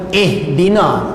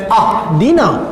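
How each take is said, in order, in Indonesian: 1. Kata ini diawali dengan vokal i. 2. Kata ini diawali dengan vokal a. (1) "Sebab itu kita sebut ihdina" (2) "Kita tak baca dengan ahdina"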